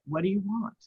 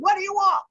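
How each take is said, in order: First: It is said softly and gently. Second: It is shouted harshly, like an army order.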